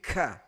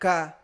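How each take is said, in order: First: The k is released with a puff of air. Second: The k is released without a puff of air. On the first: The speaker calls it right. "Keluarkan udara. Jadi tidak ka, tapi ka" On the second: The speaker calls it wrong. "tidak ka"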